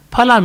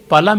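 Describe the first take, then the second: First: Phala with a breathy PH at the start; aspirated P. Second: Pala with a plain, puffless P; unaspirated P. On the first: Lecturer contrasting two Sanskrit words, Phala with aspirated P. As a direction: puff air on the first sound of Phala. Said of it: "so much of difference". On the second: Lecturer contrasting two Sanskrit words, Pala with unaspirated P. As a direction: keep the P of Pala free of breath. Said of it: "meat in Sanskrit". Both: Shown as a demonstration.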